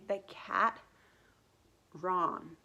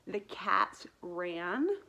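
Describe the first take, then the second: First: The final s sound of cats is dropped. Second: The final s sound of cats is pronounced. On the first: The speaker calls it wrong. "I was dropping the consonants or the ends of words off" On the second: The speaker calls it right. "instead of saying"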